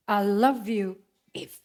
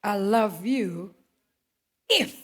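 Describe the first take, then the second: First: Slow "I love you if." with a falling "love"; slow, flat conditional line with a fall on "love"; drawn-out I love you if. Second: Slow conditional love. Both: Retold or imitated. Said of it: "kalau dunia ngomongnya kayak begini".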